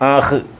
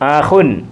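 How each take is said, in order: First: The word ends bare, without the -un sound. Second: The word ends with an added -un sound. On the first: This is the form used when stopping at a full stop. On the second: This is the full form used inside a sentence.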